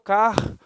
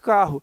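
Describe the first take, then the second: First: The r sound is pronounced twice. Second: The r sound is pronounced once. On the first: The speaker calls it wrong. "Eu não pronuncio o R duas vezes. Eu não falo carro. Ninguém fala assim" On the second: The speaker calls it right. "A gente fala naturalmente carro"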